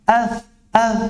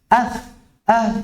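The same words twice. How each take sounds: Both takes have the same delivery.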